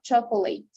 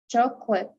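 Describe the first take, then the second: First: Every part of the word is fully pronounced. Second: A middle part of the word is left out. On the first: The speaker calls it wrong. "not not chocolate" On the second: The speaker calls it right. "we're gonna omit the this part"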